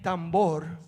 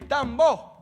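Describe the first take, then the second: First: The word ends with an R sound. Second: The word ends without an R sound. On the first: "instead of saying tambor" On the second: "we don't say the R at the end of the word"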